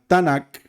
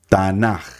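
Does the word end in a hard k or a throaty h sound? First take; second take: hard k; throaty h. First: The word ends with a hard k sound. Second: The word ends with a throaty h sound. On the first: This follows some other traditions. "Algunos lo ponen con la Kaf Sofit, entonces sería Tanak" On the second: "de la tradición sefardita, decimos Tanaj, con la Haf Sofit"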